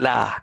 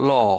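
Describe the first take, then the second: First: It is said with a Malayalam-influenced vowel. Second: It is said with a standard English vowel. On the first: The speaker calls it wrong. "elderly people, even my father used to say" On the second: The speaker calls it right. "L A W, law"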